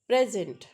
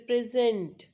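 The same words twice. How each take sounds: First: The stress is on the first syllable. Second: The stress is on the second syllable. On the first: It is the noun, a gift. "noun form means that's a gift" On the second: It is the verb, to give. "that send is verbal form to give"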